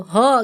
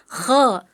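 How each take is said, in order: First: HO with a smooth breathed h. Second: KHO with raspy friction; correct kho. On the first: Retold or imitated. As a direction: imitate the student's unscraped HO. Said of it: "seperti H yang dirubah jadi huruf O". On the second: Shown as a demonstration. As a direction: scrape the start of KHO.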